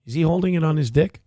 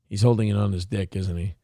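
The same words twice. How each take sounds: First: Quick, disbelieving ask; can't believe what he's seeing; incredulous question. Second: Muttered confirmation. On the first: Streamer watching Hassan's clip, quick incredulous question. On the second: Streamer muttering to chat after spotting Hassan, lower softer aside. Confirming his own suspicion. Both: Real, not acted.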